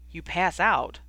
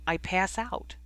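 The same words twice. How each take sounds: First: Mildly doubtful echo of "pass out"; a touch of disbelief in "You pass out?"; doubtful repeat. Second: Said in the usual way. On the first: A narrator's reading. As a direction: repeat it as if you don't quite believe it. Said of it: "Ron repeated doubtfully". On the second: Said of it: "Ron repeated".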